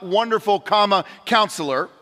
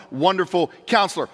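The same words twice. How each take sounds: First: "wonderful" and "counselor" as two separate titles with a break between; wrong split reading. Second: "Wonderful Counselor" run together as one title, no break, stress falling on "Counselor"; one joined title. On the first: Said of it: "it's not wonderful, comma, counselor". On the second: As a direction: join "Wonderful Counselor" into one phrase, leaning on "Counselor". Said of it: "it's not two descriptions, it's one". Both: Shown as a demonstration.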